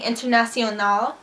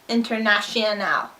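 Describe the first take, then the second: First: It is said with a native Spanish accent. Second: It is said with an American English accent. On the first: The speaker calls it right. "Instead of saying" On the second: The speaker calls it wrong. "she says"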